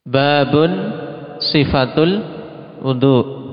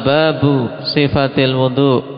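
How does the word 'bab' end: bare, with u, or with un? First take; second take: with un; with u. First: Bab ends in u followed by n. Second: Bab ends in a short u, no n. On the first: This is a chapter, the description of ablution. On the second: The chapter is about the description of ablution.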